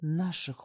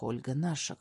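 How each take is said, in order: First: Наших said with weight, falling; firm stress on наших; emphatic. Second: Low insistent наших; emphatic. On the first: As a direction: press the word наших firmly. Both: Acted. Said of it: "произношу с нажимом".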